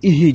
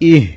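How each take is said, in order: First: An extra vowel follows the h sound. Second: The h ends the syllable with no vowel. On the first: The speaker calls it wrong. "ইহি ইহি যাতে না হয়" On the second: The speaker calls it right. "এখানে হবে ইহ ইহ, স্পষ্ট হামজা হাজের ইহ এভাবে হতে হবে"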